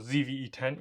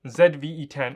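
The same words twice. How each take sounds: First: The letter is said 'zee', American style. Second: The letter is said 'zed', non-American style.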